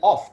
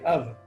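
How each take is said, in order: First: It is said with a full, strong vowel. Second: It is said with a weak, reduced vowel. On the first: The speaker calls it wrong. "we don't say off" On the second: The speaker calls it right. "we say of"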